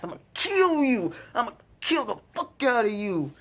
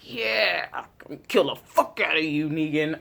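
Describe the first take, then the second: First: High, intense menacing growl of a threat; Rick's threat. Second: Echoing Rick. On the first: Vlogger quoting Rick threatening Negan, menacing. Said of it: "Rick's just like". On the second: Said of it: "I was just like". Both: Retold or imitated.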